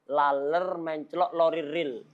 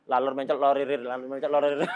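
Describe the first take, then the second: First: Careful, separated tongue-twister words. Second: Tongue twister rattled off twice without a break; non-stop tongue twister. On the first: Teacher introducing a tongue twister to students, word by word. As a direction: lay out the twister piece by piece. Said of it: "Tapi kalau antum merangkai". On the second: Teacher daring students to repeat it five times, non-stop. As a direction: run the words together, no stopping. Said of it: "Jangan berhenti". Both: Shown as a demonstration.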